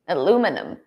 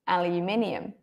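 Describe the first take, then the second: First: The word is said in an American accent. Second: The word is said in a non-American accent. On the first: "study in the U S or study American English, they say aluminum" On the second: "But I say aluminium"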